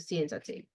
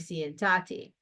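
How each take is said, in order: First: The stress is on the first syllable. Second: The stress is on the second syllable. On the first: The speaker calls it right. "we want the stress to stay where it belongs, which is on the E" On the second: The speaker calls it wrong. "the stress would now fall on the A"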